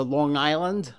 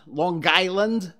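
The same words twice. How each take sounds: First: Said in the usual way. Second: Slow, drawn-out Long Island accent on "Long Island"; "Long Island" in a mild local Long Island accent. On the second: Shown as a demonstration. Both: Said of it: "as they say".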